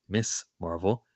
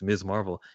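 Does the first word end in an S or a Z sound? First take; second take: S; Z. First: The first word ends with a hissing s sound. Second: The first word ends with a buzzing z sound. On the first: The speaker calls it wrong. "and it's not Miss Marvel" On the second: The speaker calls it right. "which you and I pronounce correctly, and it's Miz Marvel"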